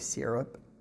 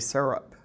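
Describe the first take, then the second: First: The word is said the Canadian way. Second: The word is said the Texan way. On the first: "Canadians say syrup" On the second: "Texans say syrup"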